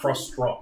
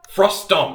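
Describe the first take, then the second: First: An extra R sound follows the T. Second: No R sound follows the T. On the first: The speaker calls it wrong. "I threw in an extra R" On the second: The speaker calls it right.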